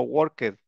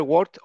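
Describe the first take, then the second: First: "worked" in two syllables, work-ked; ED pronounced fully. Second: "worked" in one syllable, ending -kt. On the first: Teacher offering the second option, "worked" with full ED syllable. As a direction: sound out the ED in "worked". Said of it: "ahí sí se pronuncia la E D". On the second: Teacher offering the first option, "worked" ending in T. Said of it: "como si fuera una T al final". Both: Shown as a demonstration.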